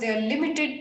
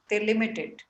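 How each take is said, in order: First: The words 'they are' are said in full. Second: The words 'they are' are contracted together. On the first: The speaker calls it wrong. "When you read these, they are" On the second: The speaker calls it right. "just try and use contraction because they're limited"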